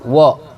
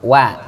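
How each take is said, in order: First: The vowel is a rounded o sound. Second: The vowel is an open a sound. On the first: The speaker calls it wrong. "bukan wo" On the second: The speaker calls it right. "wa wa bukan wo"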